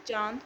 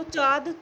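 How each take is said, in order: First: चांद said with a nasalised aa; with nasalisation. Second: चाँद said as chaad, with a plain oral aa; without nasalisation. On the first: Teacher showing the correct word with anunasik, चांद nasalised. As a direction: send the vowel of चांद through nose and mouth. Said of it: "और यह चांद शब्द बनेगा". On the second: Teacher showing the word missing its anunasik, चाँद denasalised to chaad. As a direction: drop all nasal sound from चाँद. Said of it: "मान लो अनुनासिक ना लगाएं". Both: Shown as a demonstration.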